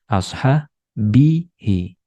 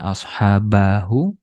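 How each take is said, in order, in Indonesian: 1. Vokal i ada sebelum akhiran. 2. Vokal a ada sebelum akhiran. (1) "tapi ashabihi" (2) "bukan dibaca ashabahu"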